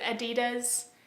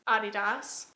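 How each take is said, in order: First: It is said the American way. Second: It is said the German way. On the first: "in America we pronounce it Adidas" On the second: "apparently is the correct pronunciation because the founder is German"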